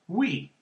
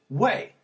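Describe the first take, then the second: First: The word rhymes with 'see'. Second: The word rhymes with 'say'. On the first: This is how the speaker reads the word. "to me, it's always pronounced oui" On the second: This is how French speakers say the word. "Parisian French pronounces it way"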